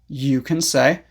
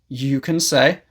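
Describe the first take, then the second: Both takes have the same delivery.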